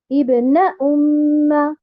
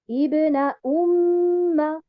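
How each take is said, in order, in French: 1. La syllabe 'na' porte l'accent. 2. La syllabe 'na' ne porte pas d'accent. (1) "Je ne vais pas dire ibna umma" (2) "je ne vais pas mettre un arbre sur harakat al-noun"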